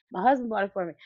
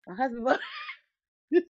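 First: Said in the usual way. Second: Breaking into a laugh mid-line, higher and fast. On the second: Real, not acted. Repeating her stock answer to fans until she cracks up laughing. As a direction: laugh through "My husband bought it".

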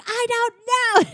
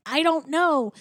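First: Very high, drawn-out mock wail; mock full panic. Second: Higher-pitched mock helplessness; mildly flustered. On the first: Linguini cracking under the staff's questions, hammed-up panicked wail. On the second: Linguini answering the kitchen staff, mildly flustered mock panic. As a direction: plead it with a touch of panic. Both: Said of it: "Linguini's freaking out".

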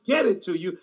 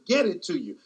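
No difference in how they are said.

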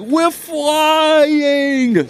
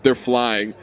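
First: Very high, loud goofy holler; big idiot Sasquatch. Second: Said in the usual way. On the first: Acted. Hallucinated Sasquatch soaring with his son, idiot holler. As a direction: cry it out long like a gleeful cartoon oaf. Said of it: "Sasquatch says".

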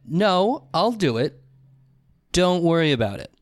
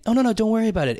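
First: Separate, weighted phrases with pauses; imitated curt refusal. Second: Higher, quick-flowing mock-polite brush-off; imitated polite refusal. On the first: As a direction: act out a firm, dismissive brush-off. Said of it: "But it was a". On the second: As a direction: wave off the help lightly, pitched up. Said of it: "But not like in a".

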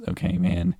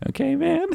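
First: Said in the usual way. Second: "man" squeaked very high with a rise; mock squeaky voice. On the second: Mocking his buddy's okay man, very high squeak. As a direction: parrot him in a squeaky voice. Repeating partner's line mockingly.

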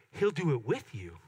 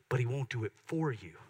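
First: "with" punched and set apart; stress on WITH. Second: "for" given clear contrastive weight; "for" set apart and emphasized; stress on FOR. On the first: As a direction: lean hard on the word "with". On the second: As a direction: lean on the word "for". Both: Shown as a demonstration. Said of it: "Do you hear that, the difference?".

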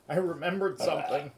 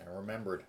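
First: Louder, higher excited recall. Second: Said in the usual way. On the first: Real, not acted. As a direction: blurt it out suddenly.

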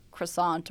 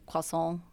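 First: "croissant" as kruh-SAHNT, with a clear r; Americanized "croissant", kruh-sahnt; anglicized croissant. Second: "croissant" as kwah-SOH, nasal ending; mock-French "croissant", kwah-sohn; French-style croissant. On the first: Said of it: "don't really know how to say". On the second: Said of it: "However you wanna say it". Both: Shown as a demonstration.

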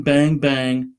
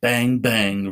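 First: Louder toy gun noises. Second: Toy gun noises. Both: A narrator's reading. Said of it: "pretending to get in high-speed car chases".

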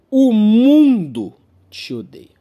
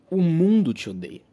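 First: Loud and slow, each word weighed; dramatic slow proclamation. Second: Said in the usual way. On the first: Real, not acted. Comedian to audience, a slow loud dramatic verdict. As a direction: declare it like a grim verdict. Punchline said twice.

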